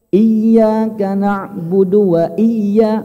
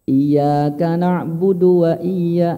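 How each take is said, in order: First: The doubled consonant is pressed and raised. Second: The doubled consonant gets no extra pressure. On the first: The speaker calls it right. "Harus ada tekanan" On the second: The speaker calls it wrong. "Kita kurang tepat kalau baca"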